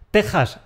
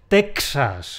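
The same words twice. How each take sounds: First: The x is said as a Spanish j. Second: The x is said as an English ks. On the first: The speaker calls it right. "exactamente igual que las tejas de un tejado" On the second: The speaker calls it wrong. "No es Texas, eso se lo dejamos a los hablantes de inglés"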